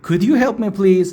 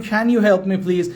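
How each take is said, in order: First: Slow model with "Could"; slow could version. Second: Slow model with "Can"; slow can version. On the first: Teacher contrasting "Could" with "Can". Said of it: "چرا could آوردم". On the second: Teacher contrasting the "Can" version with "could". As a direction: try the "Can" version slowly. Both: Shown as a demonstration.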